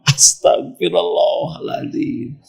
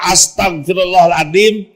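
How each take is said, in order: First: It is said softly and humbly. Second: It is said sharply and accusingly. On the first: The speaker blames their own sins. The speaker calls it right. "Tapi pelan istighfarnya" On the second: The speaker blames the other person. The speaker calls it wrong. "itu beda ya. Itu nggak jelas"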